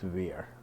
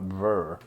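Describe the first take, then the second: First: The name is said with a long 'ee' vowel. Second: The name is said with a short 'er' vowel. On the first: The speaker calls it right. "but it was Veer" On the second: The speaker calls it wrong. "They would call it Ver instead of Veer"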